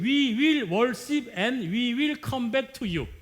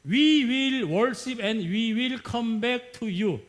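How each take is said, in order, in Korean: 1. 더 원어민 같은 영어 억양으로 읽었어요. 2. 강한 한국식 억양으로 읽었어요. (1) "다시 읽어요" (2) "아주 제가 콩글리시로 읽었어요. 진짜 한국, 한국식으로"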